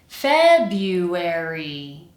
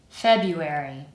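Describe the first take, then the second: First: The word is said slowly and carefully. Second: The word is said at normal speed. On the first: "The first time kind of slowly" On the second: "the second time normally"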